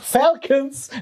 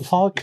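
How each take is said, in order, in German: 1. Das Wort wird ohne britischen Akzent gesprochen. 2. Das Wort wird mit britischem Akzent gesprochen. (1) "Falcons, nicht Falcons" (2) "Ich dachte, ich spreche es britisch, also das ist der Quatsch. So Falcons"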